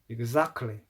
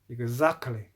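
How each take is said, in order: First: The t in the middle is dropped. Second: The same.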